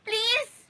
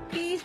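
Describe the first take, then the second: First: It sounds sharp and angry. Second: It sounds soft and pleading. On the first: The speaker calls it wrong. "parang galit eh" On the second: The speaker calls it right. "Magmakaawa ka pa"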